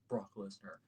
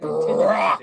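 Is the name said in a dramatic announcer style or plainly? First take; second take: plain; dramatic. First: The name is said in a plain, flat voice. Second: The name is drawn out in a booming announcer voice. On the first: The speaker calls it wrong. "You can't just say Brock Lesnar" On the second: The speaker calls it right. "you have to pronounce it as Paul Heyman intended it"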